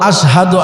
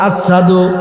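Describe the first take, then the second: First: The middle consonant is a clear 'sh' sound. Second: The middle consonant is a plain 's' sound. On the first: The speaker calls it right. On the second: The speaker calls it wrong.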